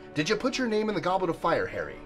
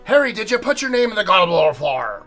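First: It is said in a calm, quiet way. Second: It is said in an agitated, shouting way.

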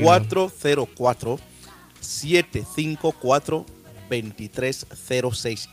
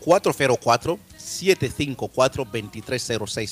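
First: The number is said very slowly. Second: The number is said at normal speed.

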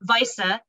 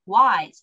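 First: The name is pronounced in the German way. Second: The name is pronounced in a non-German way. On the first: The speaker calls it right. "correctly pronouncing with German pronunciation" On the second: The speaker calls it wrong. "Sorry, I pronounced that wrong"

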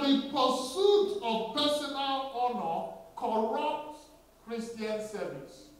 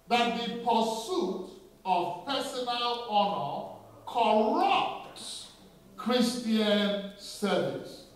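First: It is said at a normal pace. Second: It is said slowly and deliberately.

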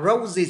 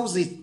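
First: The first consonant is r, the second z. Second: Both consonants are pronounced as z. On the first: The speaker calls it right. "Chứ nếu đọc là roses thì khó" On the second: The speaker calls it wrong. "roses hai chữ Z"

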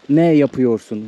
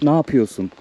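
First: Every syllable of the phrase is pronounced fully. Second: The phrase is pronounced in a shortened, reduced form. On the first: The speaker calls it wrong. "we never says ne yapıyorsun" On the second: The speaker calls it right. "It's short okay. For informal way"

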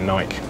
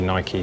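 First: The word ends in a 'k' sound. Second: The word ends in an 'ee' sound. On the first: This is how British people say it. The speaker calls it wrong. "I think we got it wrong calling it Nike" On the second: This is how Americans say it. The speaker calls it right. "the Americans say Nike"

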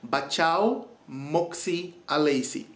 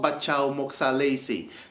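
First: The name is said slowly and carefully. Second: The name is said at normal speed.

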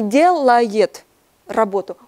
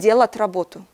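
First: The verb is said with all its syllables. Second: The verb is said contracted, without the y sound. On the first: This is the standard form. "Он не делает работу" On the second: This is the dialect form. "он делает работу"

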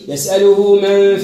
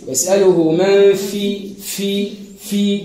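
First: The f sound is faint, with barely any contact. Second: The f sound is clearly heard, with firm contact. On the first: The speaker calls it wrong. "ما ثماش" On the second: The speaker calls it right. "تسمعها"

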